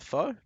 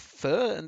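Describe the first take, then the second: First: The vowel sounds like the one in 'foe'. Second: The vowel sounds like the one in 'fur'. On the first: The speaker calls it wrong. "as opposed to faux" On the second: The speaker calls it right. "I've been told it's pronounced uh, fur"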